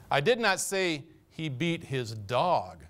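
The word 'dog' is stressed. He beat some other animal, but not the dog. "He was hard on the cat"

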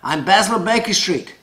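It is said in a put-on posh character voice. "that's the Basil Baker Street voice"

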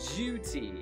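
The vowel is a long 'you' with a 'y' glide before it. This is the British pronunciation. The speaker calls it right. "It needs to be a long vowel U sound"

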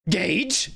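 It is said with only slight anger.

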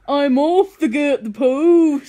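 It is said in an attempted Birmingham accent. "I'm off to get the post in a Birmingham accent"

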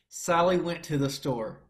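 The voice sounds tight and pinched through clenched teeth. The speaker calls it wrong. "It would sound really tight, really pinched"

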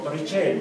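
The name is pronounced the Italian way. It respects the name's original language. "pronunciado en italiano como"

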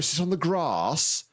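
It is said in a southern English accent. "you go down south and it's like"

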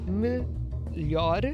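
The final r is a quick tap. "Em Portugal, se diz melhor, melhor, com esse e e o r no final, esse r, tep"

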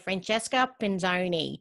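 The name is said with an Australian accent.

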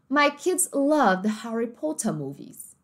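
It is spoken in a British English accent. "Mas no inglês britânico, da forma como eles falariam"

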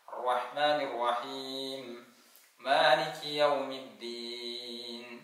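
There is a stop after raheem.

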